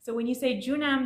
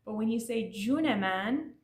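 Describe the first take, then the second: First: "Junam" clipped to two syllables, stress on the end; the short "Junam" for the sweet reply; Junam pronounced juNAM. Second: "Juneman" with a clear e before man; the full "Juneman" used to swear; Juneman with the middle e. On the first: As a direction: say "Junam" short, zhoo-NAHM, no middle e. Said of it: "and not Junam". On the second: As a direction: say "Juneman" in three syllables, joo-neh-MAHN. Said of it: "you wanna definitely say Juneman". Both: Shown as a demonstration.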